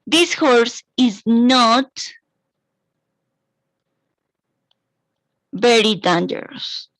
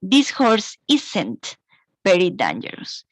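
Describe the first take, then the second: First: The words 'is not' are said in full. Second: The words 'is not' are contracted to 'isn't'.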